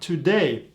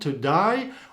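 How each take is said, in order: First: The last vowel sounds like 'ay'. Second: The last vowel sounds like 'eye'. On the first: "or with the E sound" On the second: "with some kind of A sound"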